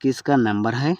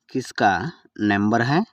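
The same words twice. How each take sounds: First: Said in the usual way. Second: Word by word. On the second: Shown as a demonstration. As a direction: split కిస్కా from number హై for learners. Teacher repeats phrase word by word. (పదం పదంగా విడదీసి)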